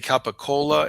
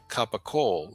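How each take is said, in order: First: The final syllable is fully pronounced. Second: The final syllable is dropped. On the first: "their last syllable will either be pronounced or not" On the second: "their last syllable will either be pronounced or not"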